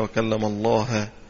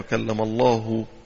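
First: Allah ends with an 'a' vowel, as object. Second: Allah ends with a 'u' vowel, as subject. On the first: Moses is the one who spoke, not God. The speaker calls it wrong. "وخليها وكلم الله" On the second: God is the one who spoke to Moses. The speaker calls it right. "الآية وكلم الله"

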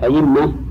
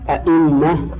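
First: The second glottal stop becomes a y sound. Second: Both glottal stops are fully pronounced. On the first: "إبدال الثانية ياء" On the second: "هذا تحقيق"

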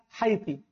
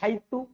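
First: The word ends with an i vowel. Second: The word ends with an u vowel. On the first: "Wahaiti bil kasr" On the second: "haitu bidong"

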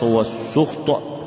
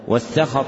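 First: The first consonant is followed by a 'u' vowel. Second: The first consonant is followed by an 'a' vowel. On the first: "وضمها" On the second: "بفتح السين"

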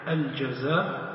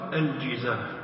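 First: The first vowel is an open a sound. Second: The first vowel is a front i sound. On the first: "ويجوز فيها الفتح الجزاف" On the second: "ويجوز فيها الكسر الجزاف، والكسر أفصح"

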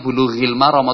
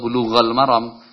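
First: The first word ends in an i vowel. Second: The first word ends in an a vowel. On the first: "kita tidak menyebutnya bulughil maram" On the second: "atau bulughal maram"

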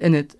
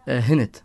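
First: The word begins with a plain vowel sound. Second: The word begins with an h sound. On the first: This is the general form of the word. "بدل انت" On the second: This is the coastal dialect form. "عندنا بالساحل بنبدل الالف هاء"

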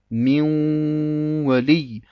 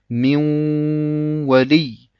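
Both takes have the same delivery.

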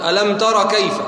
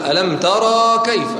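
First: The vowel after the r is short. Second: The vowel after the r is long. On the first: The speaker calls it right. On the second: The speaker calls it wrong.

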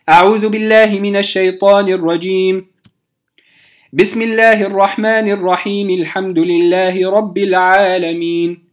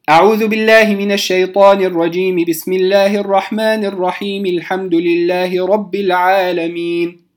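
First: A pause follows the first phrase, the rest joins. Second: All three phrases run together without any pause. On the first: "قطعت أو وقفت على الاستعاذة، ثم وصلت البسملة بأول الفاتحة" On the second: "أن أصل الجميع"

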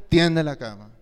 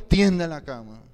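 The two takes are said the same way.

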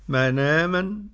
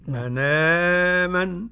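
First: The long vowel is held for two beats. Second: The long vowel is held for four beats. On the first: "حركتين" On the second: "أربع"

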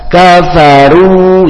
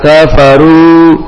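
First: The final vowel is said with rounded lips. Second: The final vowel is said with unrounded lips. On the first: The speaker calls it right. "maka dua bibir dimonyongkan" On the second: The speaker calls it wrong. "jangan kafaru"

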